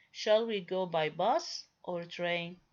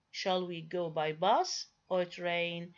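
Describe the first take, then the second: First: Said in the usual way. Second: "bus" lifted with a rising tone, "train" drops with a falling tone; rise on bus, fall on train. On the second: Shown as a demonstration. Teacher demonstrating alternative question tune to students, rise on "bus", fall on "train". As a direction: rise on "bus", then let "train" fall to close the list. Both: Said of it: "I produce it with a rising tone".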